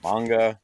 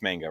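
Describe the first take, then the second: First: "manga" with the a of "father"; broad-a pronunciation. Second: "manga" with the a of "man"; short-a pronunciation. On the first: Host trying the other pronunciation, broad-a "manga". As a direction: say "manga" as MAHNG-guh, open a. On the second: Host checking how it's pronounced, short-a "manga". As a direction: say "manga" as MANG-guh, short flat a. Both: Shown as a demonstration. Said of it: "That's how you pronounce it".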